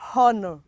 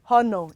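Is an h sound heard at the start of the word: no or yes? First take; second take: yes; no. First: The word begins with an audible h sound. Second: The word begins without an h sound. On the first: The speaker calls it wrong. "It is not honor" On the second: The speaker calls it right. "letter H is also silent in them"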